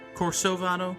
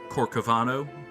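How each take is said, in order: First: The middle consonant is an S sound. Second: The middle consonant is a K sound. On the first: The speaker calls it wrong. "It doesn't have the little Cedilla" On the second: The speaker calls it right. "It doesn't have the little Cedilla, so it's probably Corcovado"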